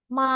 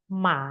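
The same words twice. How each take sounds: First: The pitch stays high, level and long. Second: The pitch dips down and rises again. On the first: "datar dan panjang" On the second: "Dari atas ke bawah, ke atas lagi"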